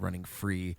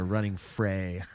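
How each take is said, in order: First: The word free ends in a clear ee vowel. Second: The word free ends in an ay-like vowel. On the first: This is how another singer sang it. "I guess that's how how [name] sang it" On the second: This is the speaker's own vocal style. "I wanted to do like a "running fray.""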